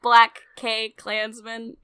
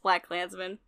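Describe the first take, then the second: First: An extra K sound comes before Klansman. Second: No extra K sound comes before Klansman. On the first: The speaker calls it wrong. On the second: The speaker calls it right.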